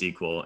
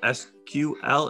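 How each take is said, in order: First: It is said as one word. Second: It is said as three separate letters. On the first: "I have always pronounced it just SQL" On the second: "instead of reading out SQL"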